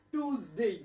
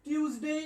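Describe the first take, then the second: First: টিউজডে without the y glide, "tooz-day"; tooz pronunciation. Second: টিউজডে with a y glide, "tyooz-day"; teacher's model of টিউজডে with "tyoo"; tyooz pronunciation. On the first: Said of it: "অথবা টুজ হবে". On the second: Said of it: "টিউজ হবে". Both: Shown as a demonstration.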